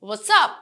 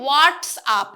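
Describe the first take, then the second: First: It is said lightly, in a casual tone. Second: It is said heavily, without a light casual tone. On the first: The speaker calls it right. "হালকা করে" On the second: The speaker calls it wrong. "what's up এভাবে বলছি না"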